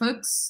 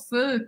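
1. O som do x final é pronunciado. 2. A palavra termina na vogal. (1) "Eu não vou falar ... feux, nada disso" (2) "É château, feu, creux"

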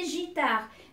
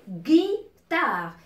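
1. Le mot commence par un son j doux. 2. Le mot commence par un son g dur. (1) "Il va se prononcer guitare. ... avec I, c'est J" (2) "j'ai dit guitare"

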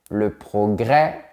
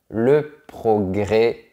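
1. La voyelle finale est un è ouvert. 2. La voyelle finale est un e fermé.

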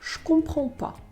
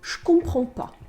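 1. Ne випадає, а je перетворюється на звук «ш». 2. Ne випадає, а je перетворюється на звук «ш».

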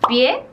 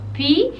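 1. La E final se pronuncia. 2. La E final es muda.

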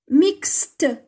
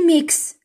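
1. Le mot se termine par un son t final clair. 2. Le mot se termine sans son t final. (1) "mixte ماشي mix" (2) "ماشي mix"

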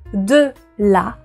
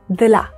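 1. Les deux syllabes sont prononcées pleinement et séparément. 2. La voyelle de 'de' tombe, ce qui donne un rapide 'd'la'. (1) "au lieu de dire de la" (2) "c'est devenu de la"

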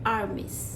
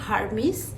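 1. শব্দটি একটি স্বরবর্ণ দিয়ে শুরু হয়। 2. শব্দটি h ধ্বনি দিয়ে শুরু হয়। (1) "এটার উচ্চারণটা হবে আর্মিস" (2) "অনেকেই বলে থাকেন হার্মিস, কিন্তু না"

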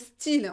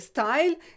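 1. La voyelle est le son 'ee'. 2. La voyelle est le son 'eye'. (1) "le mot style" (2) "en anglais c'est style"

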